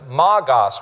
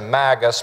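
First: The last syllable is said as 'gos'. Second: The last syllable is said as 'gus'. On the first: This is the original Greek form of the word. "but it's magos" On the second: This is the usual English way of saying it. "So we say magus"

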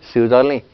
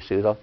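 First: The word ends with its final vowel pronounced. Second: The word ends with its final vowel dropped.

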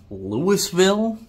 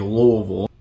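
First: It is said the common outsider way. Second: It is said the local Kentucky way. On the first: The speaker is not from Kentucky. "You might say Louisville. Louisville, that would make you a normal person" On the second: The speaker is a local Kentuckian. "That's how we pronounce it here in Kentucky"

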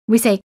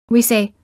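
Both takes have the same delivery.

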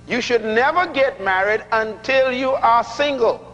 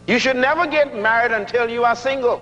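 First: The sentence is spoken very slowly. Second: The sentence is spoken at a normal pace.

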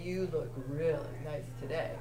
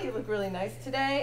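First: It is said in a lewd, suggestive tone. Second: It is said in a plain, friendly tone. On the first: It carries a sexual undertone. "cornering you in the supply closet and looking you up and down" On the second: It is an innocent compliment.

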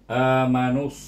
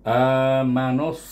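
Both takes have the same delivery.

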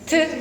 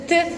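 Both takes have the same delivery.

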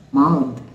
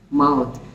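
First: The final th is voiced, with vocal cord vibration. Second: The same.

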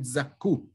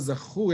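First: The middle consonant is a hard k sound. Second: The middle consonant is a raspy kh sound. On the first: They are pure and righteous. "you have to read it zaku. You put a dagesh, you put a dot in the kaf" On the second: They were rewarded or merited it. "Instead of zaku"

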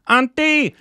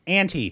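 First: It is said in an Indian accent, further back. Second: It is said in a plain American accent. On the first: "the way they say it, like in Lunchbox, auntie. It's all in the back" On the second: "The way I say it is auntie"

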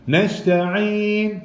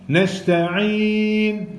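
No difference in how they are said.

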